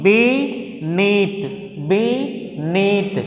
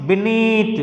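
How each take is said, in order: First: "beneath" split into two slow, separate syllables; teacher sounding out "beneath" in two pieces. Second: Said in the usual way. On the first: Shown as a demonstration. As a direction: stretch both halves of "beneath", pausing between. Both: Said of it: "two syllables".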